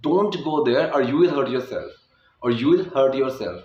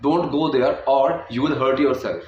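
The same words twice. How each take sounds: First: Or you will run together smoothly; linked fast. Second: Or, you and will each said apart; separated words. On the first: Teacher saying the sentence with or you will linked. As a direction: roll or you will into one word. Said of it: "मैंने इतनी तेज़ी से बोला". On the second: Teacher showing the wrong, unlinked version. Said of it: "अगर मैं इसको अलग से बोलूँ". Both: Shown as a demonstration.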